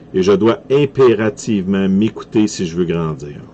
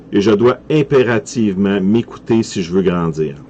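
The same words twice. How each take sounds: The two takes are said the same way.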